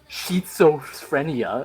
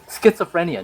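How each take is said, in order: First: The middle sound is said without a t. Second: The middle sound is said with a t. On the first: The speaker calls it wrong. "not schizophrenia" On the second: The speaker calls it right. "It's schizophrenia"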